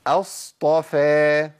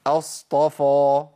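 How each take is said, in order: First: أصطفى with a thin light fa. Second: أصطفى with a thick heavy fa. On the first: Teacher reads the correct light f. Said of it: "ده الصح". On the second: Teacher shows the wrong heavy f. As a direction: darken the fa in أصطفى. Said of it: "الخطأ فين يا شيخ". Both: Shown as a demonstration.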